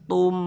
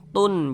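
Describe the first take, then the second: First: The syllable ends with a merged m sound. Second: The syllable ends with a clear n sound. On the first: The speaker calls it right. "dimasukkan ke huruf mim sehingga melebur menjadi huruf mim" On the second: The speaker calls it wrong. "jangan dibaca tun"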